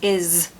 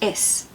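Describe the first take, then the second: First: The word ends with a Z sound. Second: The word ends with an S sound. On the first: The speaker calls it right. "it's is ... the S sometimes being a Z sound" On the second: The speaker calls it wrong. "is is not pronounced is"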